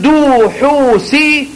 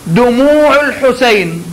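First: "دو حوسي" swallowed and cut short, drawn slowly; mock the wrong way, slurring "دو حوسي"; clipped wrong demo. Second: Drawn-out chest-and-head resonance on "دموع الحسين"; slow resonant demo. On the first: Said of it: "بدل ما تقول". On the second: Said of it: "مثلًا أنت تقول". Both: Shown as a demonstration.

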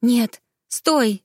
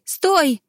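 First: High, raised "стой"; a girl pleading with the boy; urgent plea. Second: "стой" much higher and louder, a cry; a girl crying out to stop the guards; desperate cry. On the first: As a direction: stop him before he calls. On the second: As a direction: scream "стой" at him in panic. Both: A narrator's reading. She begs him to stop.

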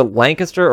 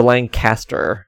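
First: First "Lancaster" as LANK-uh-ster, middle swallowed; reduced middle syllable. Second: Second "Lancaster" as LAN-CAS-ter, middle fully sounded; full middle syllable. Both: Shown as a demonstration. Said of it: "it's either Lancaster or Lancaster".

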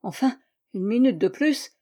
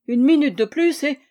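First: Said in the usual way. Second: "Une minute de plus" louder, higher, falling on "plus"; louder emphasis. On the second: A narrator's reading. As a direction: lean hard on "plus".

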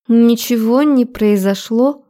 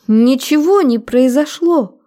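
First: Higher, slow female character voice holding steady; strained self-control, a touch condescending; forced composure. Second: High, drawn-out protest; higher, agitated character voice; distressed denial. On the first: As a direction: deny it slowly, trying to keep control. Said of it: "пыталась взять себя в руки". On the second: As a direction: insist desperately in a raised female voice. Frightened woman denies under interrogation. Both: A narrator's reading.

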